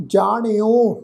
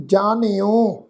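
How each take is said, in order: First: ਜਾਣਿਓ with a curled-tongue ṇ; retroflex n. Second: ਜਾਣਿਓ with a dental n, as jaaneo; tongue on the teeth for the n in ਜਾਣਿਓ. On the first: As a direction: curl the tongue back for the n in ਜਾਣਿਓ. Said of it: "ਨਾਣੇ ਅੱਖਰ ਨਾਲ ਪਾਠ ਉਚਾਰਨ ਕਰਾਂਗੇ". (ਜਾਣਿਓ ਨੂੰ ਨਾਣੇ ਦੀ ਧੁਨੀ ਨਾਲ ਬੋਲੋ) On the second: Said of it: "ਨੰਨੇ ਅੱਖਰ ਨਾਲ ਉਚਾਰਨ ਨਹੀਂ ਕਰਨਾ". (ਜਾਣਿਓ ਨੂੰ ਨੰਨੇ ਦੀ ਧੁਨੀ ਨਾਲ ਬੋਲੋ) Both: Shown as a demonstration.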